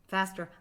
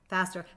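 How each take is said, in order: The two takes are said the same way.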